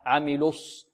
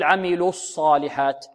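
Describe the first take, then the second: First: عملوا الص with a clear rounded "lus"; softer, lower, round the lam of عملوا into sad; rounded lips. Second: عملوا الصالحات with a slack "los" for "lus"; wrong lam vowel. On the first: Teacher correcting the vowel, rounded lips. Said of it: "يضم شفتيه في اللام". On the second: Teacher showing what not to say, wrong lam vowel. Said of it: "لا نقول". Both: Shown as a demonstration.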